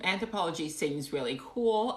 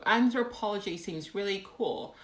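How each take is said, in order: First: Said in the usual way. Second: Awful British accent. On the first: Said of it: "in my awful British accent". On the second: Shown as a demonstration. Streamer reading a viewer comment, awful British accent. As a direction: read it in a bad British accent. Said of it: "in my awful British accent. Here we go".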